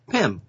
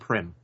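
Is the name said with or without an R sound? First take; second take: without R; with R. First: The name is said without an R sound. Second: The name is said with an R sound. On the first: The speaker calls it right. "Not with an R. It's Pym" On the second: The speaker calls it wrong. "You keep saying Pym"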